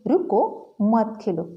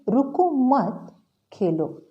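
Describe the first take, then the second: First: The pause comes right after 'ruko'. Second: The pause comes right after 'mat'.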